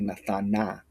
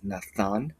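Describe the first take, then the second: First: The word ends with an extra vowel sound. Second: The word ends on a closed consonant. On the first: The speaker calls it wrong. "close syllables so you do not say nathana" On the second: The speaker calls it right. "It's Nathan"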